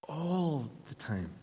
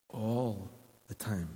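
First: Slow, lifted repeat. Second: Slow and soft. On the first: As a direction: repeat "All the time" slower and tender. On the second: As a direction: stretch "all the time" out slowly. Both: Real, not acted.

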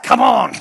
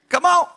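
First: Mock impatient shout. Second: Said in the usual way. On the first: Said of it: "It's like". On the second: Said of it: "And the Lord says".

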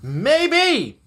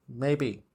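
First: MAYBE pitched high, falling at the end; high, emphatic "Maybe". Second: "Maybe" dropped low and soft; soft, low afterthought "Maybe"; subdued maybe. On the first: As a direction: draw out a high, swooping "Maybe". Answers own question, first take. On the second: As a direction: say "Maybe" low and quiet, deflated. Answers own question, subdued take. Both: Real, not acted.

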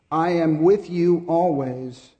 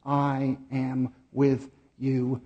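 First: Slow, louder, stress on "with" in "I am with you always"; stressed quote. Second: Very slowly, leaning on "with" in "I am with you."; slow emphasis. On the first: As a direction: lift "with" and stretch the phrase. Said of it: "And surely". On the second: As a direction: let "with" sink in, slow and gentle. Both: Real, not acted.

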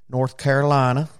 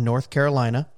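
First: North Carolina accent. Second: Said in the usual way. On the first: Shown as a demonstration. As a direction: try a hammy North Carolina accent, badly. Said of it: "That's probably a horrible accent".

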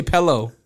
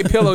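First: "pello" with a short EH first; imitated "pello". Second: Said in the usual way. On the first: Correcting girlfriend on the phone, "pello" with an EH. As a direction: say pillow as "pello", copying her. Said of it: "you don't say pillow". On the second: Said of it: "you say pello".

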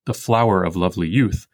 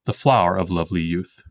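First: "the flower of lovely youth" with "flower" in two syllables, anapestic; wrong reading. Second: "the flower of lovely youth" with "flower" as one syllable, even iambs; iambic reading. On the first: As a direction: read it the skipping way. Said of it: "the line does not actually go". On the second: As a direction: read it smoothly iambic. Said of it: "but instead". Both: Shown as a demonstration.

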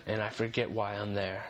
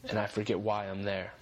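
No difference in how they are said.

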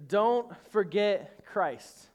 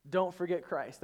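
First: Drawn out slowly, each word weighted; slow weighty don't forget Christ; slow emphatic. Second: Said in the usual way. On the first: Shown as a demonstration. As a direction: lean on every word of it. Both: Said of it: "The third one is this".

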